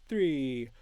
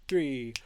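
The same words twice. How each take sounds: The two takes are said the same way.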